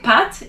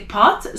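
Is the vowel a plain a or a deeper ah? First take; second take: plain a; deeper ah. First: The vowel is a plain a sound. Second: The vowel is a deeper ah sound. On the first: The speaker calls it wrong. "you don't want to say pat" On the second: The speaker calls it right. "you want to say pot"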